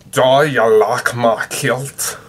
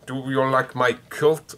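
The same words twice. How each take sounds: First: Loud, slow Scottish accent with broad vowels; Scottish "Do you like my kilt?" as the translator says it. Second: Said in the usual way. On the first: Shown as a demonstration. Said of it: "with the English to Scottish translator, it tells me". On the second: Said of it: "I can't say, "Do you like my kilt?" in Scottish".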